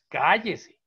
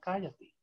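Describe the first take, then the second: First: It is said harshly and sternly. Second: It is said gently and kindly.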